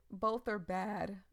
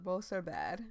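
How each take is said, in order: First: "Both are bad" said slowly and louder, each word pressed; slow emphasis. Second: "are" in "Both are bad" pushed up with a rising tune; stress on are. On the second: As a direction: hit "are" in "Both are bad" and let it rise. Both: Real, not acted. Repeats the phrase with new stress.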